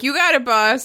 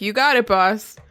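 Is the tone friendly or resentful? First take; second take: friendly; resentful. First: It sounds jovial and friendly. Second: It sounds resentful and antagonizing.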